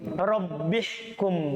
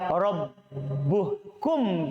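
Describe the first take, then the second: First: The vowel after rabb is i. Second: The vowel after rabb is u. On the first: The speaker calls it right. "bacaan yang pasti dalam Al-Qur'an" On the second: The speaker calls it wrong. "dengan dibaca dhamma"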